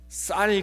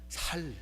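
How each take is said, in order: First: The first consonant is a tense s sound. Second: The first consonant is a plain s sound. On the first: "쌀 그래봐" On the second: "경상도 그렇잖아요"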